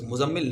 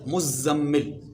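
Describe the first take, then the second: First: The z sound is short, not doubled. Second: The z sound is long and doubled. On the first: The speaker calls it wrong. "ये लफ्ज़ मुज़म्मिल नहीं है" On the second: The speaker calls it right. "ज़ा और मीम दोनों पर तशदीद है"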